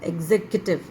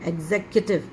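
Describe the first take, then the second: No difference in how they are said.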